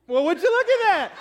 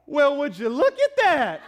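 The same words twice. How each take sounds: First: High, loud sassy line with a laugh; hands-on-hips exclamation. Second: High, slow, loud sassy drawl with a laugh; hammed-up hands-on-hips amazement; hands-on-hips exclamation. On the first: Retold or imitated. Husband's panicked words morphing into a sassy exclamation. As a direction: let the panic morph into mock amazement. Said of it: "morphed into". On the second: Husband answering his wife about the poster, sassy exclamation. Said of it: "I put my hands on my hips like this, and I went".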